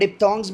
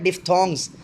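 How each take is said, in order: First: The middle consonant sounds like a p. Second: The middle consonant sounds like an f. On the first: "एच को थोड़ा सा silent करके" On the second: "जो original है"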